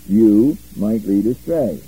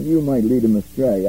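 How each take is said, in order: First: "you," hit loud and set apart, "might lead astray." read slowly; stress on YOU. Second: Said in the usual way. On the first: Shown as a demonstration. Teacher showing the right Greek word order, stressing "you,". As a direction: punch "you," then pause before "might lead astray.".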